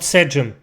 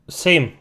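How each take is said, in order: First: It does not sound like English 'same'. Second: It sounds like the English word 'same'. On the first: The speaker calls it wrong. "Not Sejm. Mate, you're not Turkish" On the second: The speaker calls it right. "it sounds like the word for the same"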